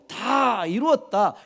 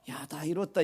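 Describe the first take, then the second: First: It is said in a triumphant, victorious tone. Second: It is said in a casual, offhand tone.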